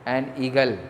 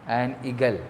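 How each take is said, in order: Both takes have the same delivery.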